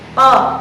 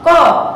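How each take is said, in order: First: Only the tongue moves; lips stay relaxed. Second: The jaw and lips push forward, rounding it. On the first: The speaker calls it right. "pastikan terlebih dahulu pangkal lidah kita telah menggapai ke langit-langit lunak" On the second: The speaker calls it wrong. "terjadi rahang yang maju, kemudian mulut pun maju"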